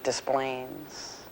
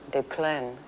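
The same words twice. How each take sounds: First: The name is given a flat American pronunciation. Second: The name is given a French pronunciation. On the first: This is how the locals say it. "we say Des Plaines ... It's all flattened out" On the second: This is the original form of the name. "a perfectly lovely French town"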